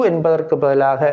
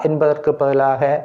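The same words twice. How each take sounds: The two takes are said the same way.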